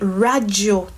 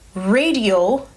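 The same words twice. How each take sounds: First: It is said with a Saint Lucian Creole pronunciation. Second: It is said with an English pronunciation. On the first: "in Creole we say radio" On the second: "radio in English"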